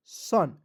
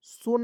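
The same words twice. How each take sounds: First: सन with a short 'uh' vowel, like 'sun'; correct reading of son. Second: सोन with a long 'o' as in 'bone'; wrong reading of son. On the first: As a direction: say सन short, rhyming with 'fun'. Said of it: "सन, इस तरह से". (सन, छोटे 'अ' के साथ सही उच्चारण) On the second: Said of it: "सोन नहीं पढ़ेंगे". (सोन, लंबे 'ओ' के साथ गलत उच्चारण) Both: Shown as a demonstration.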